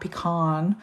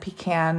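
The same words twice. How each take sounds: First: Pecan is said with a non-Georgia pronunciation. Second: Pecan is said with a Georgia pronunciation. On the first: "not pecan" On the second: "I'm from Georgia, so we say pecan"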